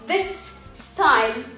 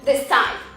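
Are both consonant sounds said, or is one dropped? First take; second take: both; dropped. First: Both s sounds are pronounced separately. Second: One s sound is dropped between words. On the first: The speaker calls it wrong. "مش بنقول this style" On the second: The speaker calls it right. "بنقول this style"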